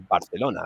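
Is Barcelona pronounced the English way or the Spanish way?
Spanish. It is pronounced in the local Spanish way. "I say Barcelona because that's how you say it here"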